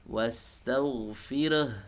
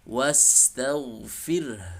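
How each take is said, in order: First: An extra vowel is added after the r. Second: The word ends with an audible h. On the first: The speaker calls it wrong. "Ra-nya menjadi re" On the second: The speaker calls it right. "Kemudian tampakkan H"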